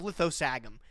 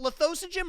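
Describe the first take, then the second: First: The name ends with a 'gum' sound. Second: The name ends with a 'jim' sound. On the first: The speaker calls it wrong. "That was my go-to way to pronounce it. I know it's wrong" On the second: The speaker calls it right. "He goes by Jim"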